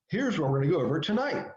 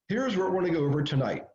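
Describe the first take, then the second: First: The voice rises at the end of the phrase. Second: The voice falls at the end of the phrase. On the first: The speaker calls it right. "if I was really good at my game, I'd say it this way" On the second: The speaker calls it wrong. "I ended down"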